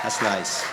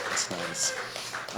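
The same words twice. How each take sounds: First: Said in the usual way. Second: Breathy hushed repeat; an unvoiced murmured echo of the first take; whispered aside. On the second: Shown as a demonstration. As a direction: whisper it to yourself.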